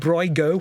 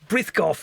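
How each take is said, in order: First: The name is run together into one word. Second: The name is said as two separate words. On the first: This is a guess at the native pronunciation. "I'm sure it's pronounced some other way, Braigo or something like that" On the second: This is the familiar way to the speaker. "Brith Goff is what I've all known it"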